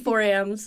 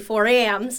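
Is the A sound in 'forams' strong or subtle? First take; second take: subtle; strong. First: The A sound is softer and more subtle. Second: The A sound is strongly accentuated. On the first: This is how most people say the word. "like a little bit more subtle" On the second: This is how the word sounds in an Ohio accent. "I'm from Ohio, so obviously all the A's are accentuated a little bit more"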